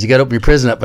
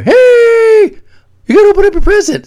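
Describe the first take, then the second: First: Said in the usual way. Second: High, fast call from another room; calling through the door. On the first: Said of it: "Eli says". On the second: Retold or imitated. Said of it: "I'm in the shower today and I hear".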